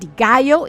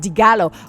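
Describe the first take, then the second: First: The name is pronounced like Spanish gallo. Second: The name is pronounced the Italian way. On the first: The speaker calls it wrong. "it's not digallo" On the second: The speaker calls it right. "it's digalo"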